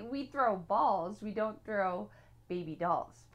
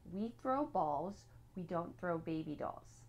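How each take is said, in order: First: Louder, with "balls" punched hard; corrected take, leaning loudly on "balls" and "dolls"; emphatic redo. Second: Said in the usual way. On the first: Shown as a demonstration. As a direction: hit "balls" firmly, then set "baby dolls" apart after a pause. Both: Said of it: "that was supposed to be".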